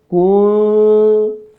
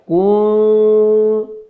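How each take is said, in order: First: The vowel is drawn out long. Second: The vowel is drawn out long.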